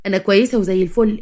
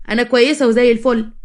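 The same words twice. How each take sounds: First: A touch of hurt reproach; reproachful. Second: Said in the usual way. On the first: A narrator's reading. Friend on the phone gently reproaching a neglectful friend. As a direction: chide an old friend gently for forgetting her. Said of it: "قالت لها بعتاب".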